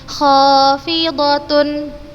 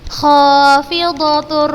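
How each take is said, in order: First: The n is kept as a separate sound. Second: The n merges into the following r sound. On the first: The speaker calls it wrong. "Ustazah bukan membacanya khafidatun" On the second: The speaker calls it right. "dimasukkan langsung ke huruf ro tanpa gunnah"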